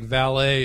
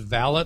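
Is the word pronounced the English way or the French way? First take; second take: French; English. First: The word is given a French pronunciation. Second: The word is given an English pronunciation.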